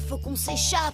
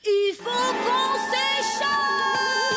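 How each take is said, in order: First: It is said at normal, quiet volume. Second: It is said loudly, almost shouted.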